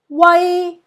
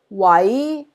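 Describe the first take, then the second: First: It is said with Cantonese tone one. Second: It is said with Cantonese tone two.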